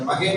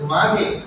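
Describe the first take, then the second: First: The first vowel is short. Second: The first vowel is long. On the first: The speaker calls it wrong. "மகே நீங்க சொல்றீங்க, ஏதாவது மகேஸ்வரி மாதிரி" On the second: The speaker calls it right. "அது மாகே"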